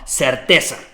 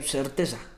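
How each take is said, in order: First: The word is said firmly, with conviction. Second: The word is said hesitantly, without conviction. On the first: The message carries security and certainty. The speaker calls it right. "Te lo estoy diciendo con certeza" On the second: The speaker is unsure of the message. The speaker calls it wrong. "No te lo dije, eh"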